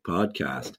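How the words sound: It is said in an American accent.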